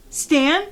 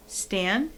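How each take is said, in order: First: Louder, higher questioning call. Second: Said in the usual way. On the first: Acted. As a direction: call after a runaway cat, more urgently. Calling after the fleeing cat.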